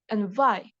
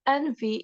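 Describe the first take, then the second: First: The final syllable ends with an 'eye' sound. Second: The final syllable ends with an 'ee' sound. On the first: The speaker calls it wrong. "for the beginners... they gonna pronounce it" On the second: The speaker calls it right. "the native speakers said that envy is the correct"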